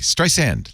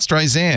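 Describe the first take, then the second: First: The second syllable starts with an s sound. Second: The second syllable starts with a z sound. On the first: The speaker calls it right. "like sand" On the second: The speaker calls it wrong. "Not Streisand"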